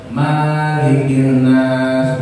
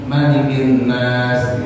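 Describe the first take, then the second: First: The first vowel of maliki is drawn out long. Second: The first vowel of maliki is kept short. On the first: The speaker calls it wrong. "nggak boleh dibaca panjang, nggak boleh begini" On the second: The speaker calls it right. "Wajibnya Malikin nas dibaca pendek"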